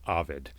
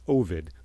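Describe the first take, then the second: First: Ovid is pronounced the way the poet's name is. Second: Ovid is pronounced the way the town says it. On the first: It names the poet. "the poet is Ovid" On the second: It names the town. "The town is Ovid"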